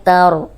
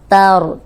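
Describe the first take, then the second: No difference in how they are said.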